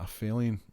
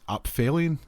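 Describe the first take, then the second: First: The 'ph' is said with an f sound. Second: The 'ph' is said with a p sound. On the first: The speaker calls it right. "like the P H is the f- sound" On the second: The speaker calls it wrong. "I was struggling to pronounce this"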